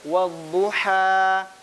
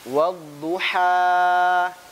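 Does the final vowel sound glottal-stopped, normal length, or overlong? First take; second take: normal; overlong. First: The final vowel is held at normal length. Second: The final vowel is held overly long. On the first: The speaker calls it right. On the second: The speaker calls it wrong. "Kalau kepanjangan misalnya wadduha, tiga harokat itu"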